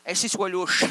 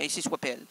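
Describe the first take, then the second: First: Louder Ainsi soit louche with louche stressed; louder correction, stress on louche; corrected. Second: Said in the usual way. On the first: Shown as a demonstration. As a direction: set it right, punching louche. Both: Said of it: "Pas pelle, louche".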